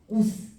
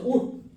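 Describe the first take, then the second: First: The final consonant is a released s sound. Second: The final consonant is an unreleased t-like stop. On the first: This is the old Middle Korean reading. "조선시대 때는 시옷의 발음을 그대로 살렸어 ... 오스 이렇게 읽어" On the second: This is the modern reading. "현대국어는 얘를 읽을 때 어떻게 읽어? ... 옷 이렇게 읽어요"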